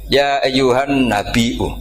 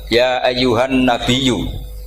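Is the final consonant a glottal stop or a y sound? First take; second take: glottal stop; y sound. First: The word has a glottal stop before the final vowel. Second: The word has a doubled y sound, no glottal stop. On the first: This follows another recognized reading tradition. "Imam Nafi enggak mau, ini mahmusullam" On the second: This follows one recognized reading tradition. "mentakhfif hamzah menjadi ya"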